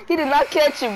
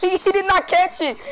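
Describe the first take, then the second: First: Said in the usual way. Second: Bursting into a loud laugh, then the words; loud laughing disbelief at the dropped catch. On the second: Real, not acted. Teammate drops the lob pass.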